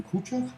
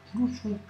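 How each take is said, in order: First: Khrouchtchev said the French way, Tchev ending; old French way. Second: Khrouchtchev said the Russian way, Hrou-cho-f, ending in f. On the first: Teacher showing the French Khrouchtchev to drop. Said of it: "vous direz plus Khrouchtchev". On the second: Teacher giving the correct Russian Khrouchtchev. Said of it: "Vous direz Khrouchtchev". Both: Shown as a demonstration.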